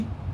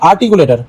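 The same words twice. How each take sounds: First: "আর্টিকুলেটর" in five widely separated syllables. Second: Said in the usual way. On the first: Shown as a demonstration. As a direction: break "আর্টিকুলেটর" up, pausing after every syllable. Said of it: "তাহলে কেমনি হলো?". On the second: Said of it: "এবার এটাকে breakdown করো".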